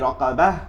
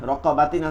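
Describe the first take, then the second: First: The word ends with a soft h sound. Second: The word ends with a -tin syllable. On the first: This is the form used when stopping on the word. "হবে কি রকাবাহ" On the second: This is the form as it is written. "রকাবাতিন আছে"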